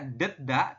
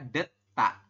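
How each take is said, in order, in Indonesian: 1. Konsonan tengahnya adalah d polos yang lembut. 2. Konsonan tengahnya adalah t tegang. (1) "ini bukan dibaca deda" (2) "tapi dibacanya adalah deta"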